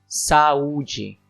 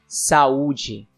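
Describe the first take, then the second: The two takes are said the same way.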